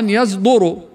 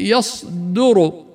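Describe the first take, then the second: First: The consonant after the ya is a heavy voiced z. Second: The consonant after the ya is a voiceless emphatic s. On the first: The speaker calls it wrong. "قد يقرأها خطأ يصدر مع تفخيم الزاي والدال" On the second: The speaker calls it right. "أو الصاد في"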